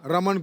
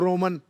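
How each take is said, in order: First: The first vowel is a plain 'a' sound. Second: The first vowel is a rounded 'o' sound.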